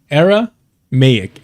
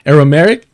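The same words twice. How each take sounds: First: "Aramaic" slowly, with MAY drawn out, falling at the end; slow down and stretch the MAY in "Aramaic"; corrected pronunciation. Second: "Aramaic" tried out loud with a rising, questioning end; questioning attempt. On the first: Streamer correcting their own word, slow careful pronunciation. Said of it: "No, Aramaic". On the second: Streamer testing a word for chat, loud questioning attempt. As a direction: try "Aramaic" as an unsure question, louder. Questions own pronunciation, then corrects it. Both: Shown as a demonstration.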